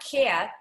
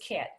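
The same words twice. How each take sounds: First: The vowel glides. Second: The vowel is short and tight. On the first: The speaker calls it wrong. "It's not cat" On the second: The speaker calls it right. "It's just cat"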